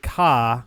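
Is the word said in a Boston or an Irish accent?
Boston. The word is said in a Boston accent. "Boston you'd say ka"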